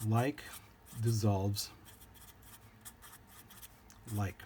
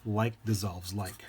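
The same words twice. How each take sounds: First: "Like... dissolves... like", one word at a time with long pauses; spaced-out emphasis. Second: Said in the usual way. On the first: Real, not acted. Teacher restates the rule for students to remember, spaced-out emphasis. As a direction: spell out "Like dissolves like" slowly, stopping dead between words.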